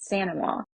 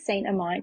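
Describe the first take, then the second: First: The name is pronounced Sanamaw, in Cajun French style. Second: The name is pronounced as it is spelled. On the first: It is the technically correct traditional version. "super Cajun correct pronunciation" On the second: It is the everyday version people understand. "we stick with Saint Amant because that's how it looks"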